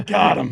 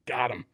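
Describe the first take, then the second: First: Louder, gloating got him; triumphant. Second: Said in the usual way. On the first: Retold or imitated. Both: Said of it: "I'm like".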